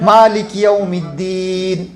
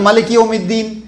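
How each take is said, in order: First: The first vowel of malik is drawn out long. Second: The first vowel of malik is kept short.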